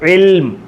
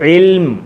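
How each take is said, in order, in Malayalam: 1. ഈ വാക്ക് അവസാനിക്കുന്നത് ശുദ്ധ അന്ത്യ വ്യഞ്ജനത്തിലാണ്. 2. ഈ വാക്ക് അവസാനിക്കുന്നത് ശുദ്ധ അന്ത്യ വ്യഞ്ജനത്തിലാണ്.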